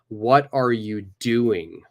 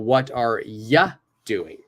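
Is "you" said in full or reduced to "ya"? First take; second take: full; reduced. First: The word you is said in full. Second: The word you is reduced to ya.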